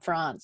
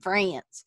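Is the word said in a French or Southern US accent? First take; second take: French; Southern US. First: It is said the French way. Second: It is said in an Alabama accent.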